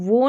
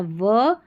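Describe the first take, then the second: First: वो with a full "oh" vowel; mistaken "vo" reading. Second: वो said as "vuh", a neutral vowel; corrected "vuh" sound. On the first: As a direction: misread it as वो, with a round "oh". (वो, "ओ" स्वर के साथ) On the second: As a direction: reduce वो to व, without the "oh". (वो को "व" बोलें) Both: Shown as a demonstration. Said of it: "वो नहीं पढ़ना है".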